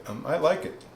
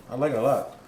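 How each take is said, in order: First: Said in the usual way. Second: Talking while chewing a bite; mouth full. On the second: Real, not acted. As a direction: say it around a mouthful of food. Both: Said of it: "shouldn't talk with my mouth full".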